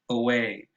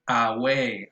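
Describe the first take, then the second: First: The first vowel is a short, weak schwa. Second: The first vowel is a full, open 'a'. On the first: The speaker calls it right. "it's so weak and so fast that it is pronounced uh" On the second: The speaker calls it wrong. "they say away, as in as in Spanish uh, agua"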